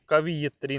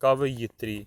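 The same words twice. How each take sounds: First: कवियत्री with "vi" before "yat", as the mistaken form; wrong form kaviyatri. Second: कवयित्री with "va" then "yit", set out as the right form; correct form kavayitri. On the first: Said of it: "ये कवियत्री नहीं होता है". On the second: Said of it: "ये होता है". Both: Shown as a demonstration.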